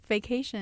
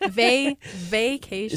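First: The first syllable sounds like 'fake'. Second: The first syllable starts with a clear v sound. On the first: The speaker calls it wrong. "Did you say vacation? Like it's fake" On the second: The speaker calls it right. "I mispronounced it"

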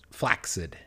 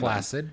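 First: The middle consonants sound like 'ks', as in flaxseed. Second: The middle consonant sounds like a single 's'. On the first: The speaker calls it right. "it's in fact pronounced flaccid" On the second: The speaker calls it wrong. "say it the wrong way"

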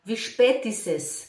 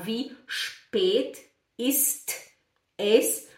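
First: The t at the end of ist is dropped. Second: The t at the end of ist is pronounced. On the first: The speaker calls it right. "a gente fala" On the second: The speaker calls it wrong. "a gente não fala"

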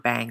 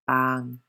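First: The vowel is a flat English a sound. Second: The vowel is a soft, open ah sound. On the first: The speaker calls it wrong. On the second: The speaker calls it right. "all to be pronounced with the soft ah sound"

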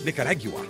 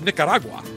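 First: The word is said with a British pronunciation. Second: The word is said in the speaker's usual accent. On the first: The speaker calls it wrong. "not Nicaragua" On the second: The speaker calls it right. "because it's Nicaragua"

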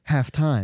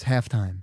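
First: It is said with the European stress pattern. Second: It is said with the American stress pattern. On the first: This is how European soccer commentators say it. "they'll say halftime" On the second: This is how Americans say it. "no, it's halftime"

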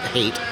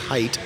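First: The vowel sounds like the one in hate. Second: The vowel sounds like the one in height. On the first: The speaker calls it wrong. "not Hate" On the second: The speaker calls it right. "It's Hait, not Hate"

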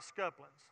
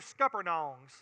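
First: The word is said in a clipped local form. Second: The word is said with every syllable enunciated. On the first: "I'm going to say it the way we would say it in Florella" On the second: "then I'll say it with a proper enunciation of the letters"

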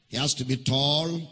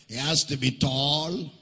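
The two takes are said the same way.

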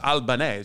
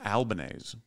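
First: The ending does not rhyme with 'mayonnaise'. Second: The ending rhymes with 'mayonnaise'. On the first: This is the pretentious way to say the name. The speaker calls it wrong. "if you're an asshole" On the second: This is how the family says its own name. The speaker calls it right. "Like mayonnaise"

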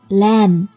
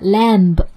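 First: The final b sound is silent. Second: The final b sound is pronounced. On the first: The speaker calls it right. "但是词尾的B 其实不发音的 ... 应该是lamb" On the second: The speaker calls it wrong. "不要读成的lamb"

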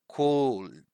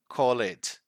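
First: The word has one syllable, with no extra vowel before the D. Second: The word has two syllables, with an extra vowel before the D. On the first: The speaker calls it right. "So don't pronounce this E" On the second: The speaker calls it wrong. "So sometimes they say the word like call it"

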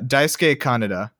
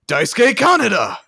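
First: The name is said in a plain reading voice. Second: The name is yelled dramatically, like Joker.

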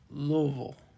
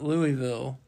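First: The syllables are slurred together and mumbled. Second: Each syllable is said clearly and fully. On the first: The speaker calls it right. "it's Louisville. ... like you have, like, your mouth full of fudge" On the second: The speaker calls it wrong. "It's not Louisville"

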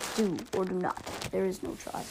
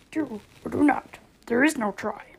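First: It is said in the speaker's normal voice. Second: It is said in an imitation of Yoda's voice.

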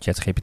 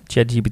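First: The name is pronounced with Dutch letter sounds. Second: The name is pronounced with English letter sounds.

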